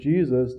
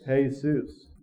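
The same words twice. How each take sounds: First: The name has an English pronunciation. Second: The name has a Spanish pronunciation. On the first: "they don't pronounce it Jesus" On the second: "they pronounce it how?"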